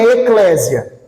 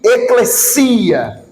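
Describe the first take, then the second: First: The stress falls on the syllable cle. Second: The stress falls on the syllable si. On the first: The speaker calls it wrong. "E também não é eclésia" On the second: The speaker calls it right. "O acento não é no E, o acento agudo, é no I"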